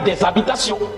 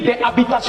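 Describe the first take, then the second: First: A z sound links the two words. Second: There is no linking sound between the words. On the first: "pour donner plus de beauté" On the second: "il n'a pas menti"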